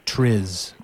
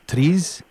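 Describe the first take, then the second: First: The R is plain and the vowel short. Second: The R is rolled and the vowel long. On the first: This is the usual Western way of saying it. "all my colleagues at the National Science Foundation say TRIZ" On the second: This is how Russian speakers say it. "like a rolling R and a I like two E's"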